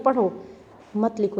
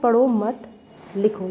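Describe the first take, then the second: First: There is a pause after the first word. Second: There is a pause after the second word. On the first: Only read, do not write now. "हमने एक विराम चिन्ह लगाया तो ये हो गया पढ़ो मत लिखो, यानी सिर्फ पढ़ो, अभी लिखो मत" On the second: Do not read, only write now. "यहाँ लिख कहा जा रहा है कि पढ़ो मत, सिर्फ अभी लिखो"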